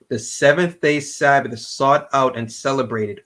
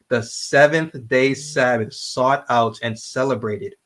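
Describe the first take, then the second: First: It is read at a quicker pace. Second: It is read at a slower pace.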